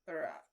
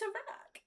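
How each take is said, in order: First: It is said in a drawling pirate voice. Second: It is said in a cartoon-character voice. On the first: "Or Johnny Depp, Jack Sparrow" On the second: "It's either SpongeBob"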